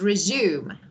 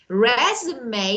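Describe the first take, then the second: First: It is said with the verb pronunciation. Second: It is said with the noun pronunciation. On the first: To begin doing something again. "When we use it as a verb, this is resume" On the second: A written summary of experience and qualifications. "Resume is noun"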